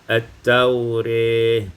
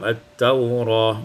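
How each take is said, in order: First: The last vowel leans toward an 'e' sound. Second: The last vowel is an open 'a' sound.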